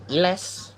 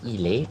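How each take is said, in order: First: An s sound is pronounced in the word. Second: No s sound is pronounced in the word. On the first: The speaker calls it wrong. "Bukan iles" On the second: The speaker calls it right. "tapi il est"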